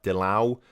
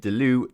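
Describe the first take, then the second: First: The name's vowel sounds like an A. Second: The name's vowel sounds like an E. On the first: The speaker calls it right. "the E's are pronounced as A's in Dutch" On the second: The speaker calls it wrong. "Apparently I'm saying Delu wrong"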